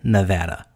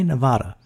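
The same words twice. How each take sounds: First: The middle syllable rhymes with 'had'. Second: The middle syllable does not rhyme with 'had'. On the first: This is the way the locals say it. "politicians pronounce it Nevada when they're in Nevada" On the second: This is the way it is said outside the state. "because then they say Nevada"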